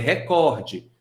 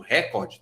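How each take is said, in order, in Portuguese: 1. A tônica cai na segunda sílaba. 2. A tônica cai na primeira sílaba. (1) "É recorde, só que recorde não é acentuada" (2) "tá errado"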